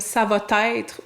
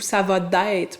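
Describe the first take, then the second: First: A t sound links va to être. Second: A d sound links va to être. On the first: "ajouter ce T" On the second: "ou ce D-là"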